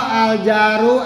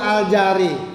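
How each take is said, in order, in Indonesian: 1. Kata itu diakhiri dengan vokal u. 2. Kata itu diakhiri dengan vokal i. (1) "Al jaru betul" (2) "tidak al jari"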